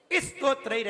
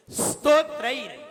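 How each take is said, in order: First: "स्तोत्रैर" said as istotrair; vowel-led st in "स्तोत्रैर"; wrong pronunciation. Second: "स्तोत्रैर" louder and higher, from a bare s; no vowel before the s of "स्तोत्रैर"; correct pronunciation. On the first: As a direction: put a short i before "स्तोत्रैर". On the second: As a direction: say "स्तोत्रैर" as sstotrair. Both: Shown as a demonstration. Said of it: "ऐसे नहीं बोलना है".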